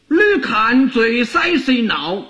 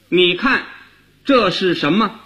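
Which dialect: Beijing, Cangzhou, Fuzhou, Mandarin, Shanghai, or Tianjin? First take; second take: Fuzhou; Mandarin. First: It is spoken in Fuzhou dialect. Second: It is spoken in standard Mandarin pronunciation. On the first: "那福建话这句话怎么说呢" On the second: "用普通话说最好懂了"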